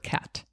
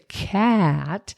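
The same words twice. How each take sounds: First: The word is said at normal speed. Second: The word is slowly stretched out. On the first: The speaker calls it right. "I say" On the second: The speaker calls it wrong. "I don't stretch it out in the beginning. I don't say"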